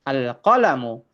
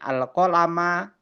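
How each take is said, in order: First: The word ends in a u vowel. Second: The word ends in an a vowel. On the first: The speaker calls it right. "harus dibaca dhammah" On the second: The speaker calls it wrong. "nggak bisa"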